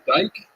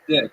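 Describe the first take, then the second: First: The vowel is a long 'eye' sound. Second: The vowel is a short 'ih' sound. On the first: This is how it is said where he was born. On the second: This is how it is said where he lives now. "but here they pronounce it Dick"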